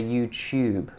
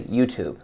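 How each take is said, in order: First: YOUTUBE said as "you-chube"; British pronunciation, "tube" as "chube". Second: YOUTUBE said as "you-toob"; American pronunciation, "tube" as "toob". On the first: Coach showing what we in Britain say, YouTube as "you-chube". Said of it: "We in Britain would say YouTube". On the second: Coach showing what Americans would say, YouTube as "you-toob". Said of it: "I think Americans would say YouTube". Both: Shown as a demonstration.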